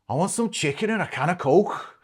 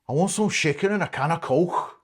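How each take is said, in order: The two takes are said the same way.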